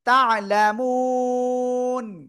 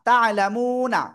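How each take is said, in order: First: The word ends on the consonant n. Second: The word ends with a final vowel sound. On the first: The reader stops at this word. The speaker calls it right. "এটা না হয়ে উচ্চারণ হবে থেমে গেলে" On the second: The reading continues without stopping. The speaker calls it wrong. "নুন জবর না"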